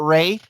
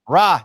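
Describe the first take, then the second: First: The vowel is an 'ay' sound. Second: The vowel is an open 'ah' sound. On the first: The speaker calls it wrong. "not Ray" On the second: The speaker calls it right. "it's Ra"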